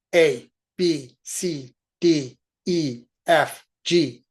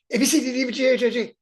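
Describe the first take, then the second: First: Each letter spoken separately and clearly; crisp, deliberate A, B, C letters; over enunciating. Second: Fast, higher slurred-together letters; rushed cheating alphabet. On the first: Shown as a demonstration. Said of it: "you need to enunciate each letter". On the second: Retold or imitated. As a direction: run A B C together like a kid. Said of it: "No cheating like I did when I was in kindergarten".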